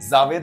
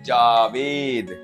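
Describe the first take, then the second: First: It begins with a z sound. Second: It begins with a j sound. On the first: The speaker calls it wrong. "जावेद नहीं होता" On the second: The speaker calls it right. "इसमें नुक्ता नहीं है"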